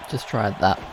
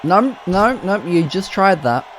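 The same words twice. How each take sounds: First: Softer muttered repeat, "Just tried that" said under the breath; quiet aside. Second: Exasperated outcry. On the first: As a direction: drop it to a wry aside. Repeats the remark to himself. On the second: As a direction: cry out in disbelief at the repeat. Wrestler repeats a failed move. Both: Real, not acted.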